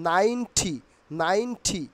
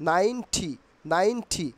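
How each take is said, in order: The two takes are said the same way.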